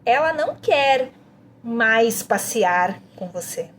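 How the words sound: The emphasis falls on "mais passear". "A próxima, mais passear"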